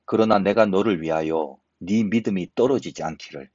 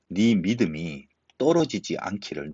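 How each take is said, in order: First: Said in the usual way. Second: "네 믿음이 떨어지지 않기를" said slowly, each word weighed; slow down and dwell on "떨어지지 않기를"; slow emphatic repeat. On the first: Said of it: "오늘 요 절에 이렇게 얘기합니다". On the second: Shown as a demonstration. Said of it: "얼마나 귀한 말씀입니까?".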